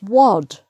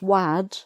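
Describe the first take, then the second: First: The vowel is a rounded 'o' sound. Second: The vowel is an open 'ah' sound. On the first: The speaker calls it right. "it's pronounced wad. So it's like an O, O sound" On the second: The speaker calls it wrong. "it's not pronounced wad"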